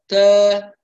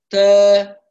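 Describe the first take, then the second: The two takes are said the same way.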